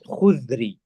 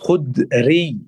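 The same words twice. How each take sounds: First: The middle consonant is not a plain d. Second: The middle consonant is a plain d sound. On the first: The speaker calls it wrong. "as some people say incorrectly" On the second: The speaker calls it right. "And it's Khudri"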